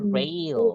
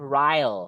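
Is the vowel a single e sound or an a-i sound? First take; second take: e; a-i. First: The vowel is said as e. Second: The vowel is said as a-i. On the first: The speaker calls it right. "Hanya dibaca E" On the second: The speaker calls it wrong. "nggak boleh rail"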